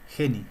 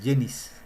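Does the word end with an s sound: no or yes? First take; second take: no; yes. First: The word ends with a vowel, no s. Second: The word ends with an s sound. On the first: The speaker calls it right. "Lo correcto es geni" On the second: The speaker calls it wrong. "está mal dicho cuando dicen apófisis genis"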